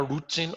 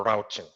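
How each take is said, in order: First: "routing" pronounced ROO-ting, with an oo sound; alternative pronunciation variant. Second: "routing" pronounced ROW-ting, with an ow sound; other pronunciation variant. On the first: Teacher repeats either option before the break, "routing" as ROO-ting. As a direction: make "routing" start like the word root. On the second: Teacher repeats either option before the break, "routing" as ROW-ting. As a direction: make "routing" start like the word rout, rhyming with out. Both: Shown as a demonstration. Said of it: "as you might want to call it".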